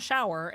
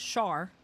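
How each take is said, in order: First: "shower" in two syllables, "show-er"; standard pronunciation. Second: "shar" as one syllable for shower; local pronunciation. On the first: Correcting to show local speech, standard "shower". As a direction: say "shower" with its full diphthong. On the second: Showing how she says shower, local "shar". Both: Shown as a demonstration. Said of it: "it's not shower, it's shar".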